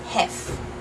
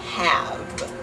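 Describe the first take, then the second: First: The word ends with a voiceless f sound. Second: The word ends with a voiced v sound. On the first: The speaker calls it wrong. "A Dutch person will often say hef" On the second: The speaker calls it right. "In English, have ends with a V sound"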